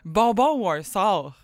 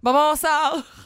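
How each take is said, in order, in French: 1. Les mots 'ou un' sont dits séparément. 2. Les mots 'ou un' se fondent en un seul son.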